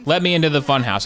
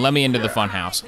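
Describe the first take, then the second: First: "me" pushed higher in a whiny plea; pleading stress on me. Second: Said in the usual way. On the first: Shown as a demonstration. Gamer begging the locked funhouse, stressing "me". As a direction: lean on "me", begging the game. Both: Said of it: "repeats it with more push".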